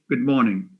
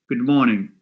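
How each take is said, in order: Both takes have the same delivery.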